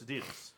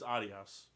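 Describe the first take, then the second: First: The name is said with an American pronunciation. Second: The name is said with a European pronunciation. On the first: "In America, it's Adidas" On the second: "It's in Europe, it's Adios"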